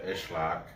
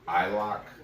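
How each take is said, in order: First: The S in the name is sounded. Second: The S in the name is silent. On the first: "That's how he says it" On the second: "you can say it like island, like the S is uh, silent"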